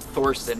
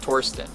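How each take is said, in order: First: The name starts with a TH sound. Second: The name starts with a plain T sound. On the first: The speaker calls it wrong. "it's not Thorsten" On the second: The speaker calls it right. "It's a silent H"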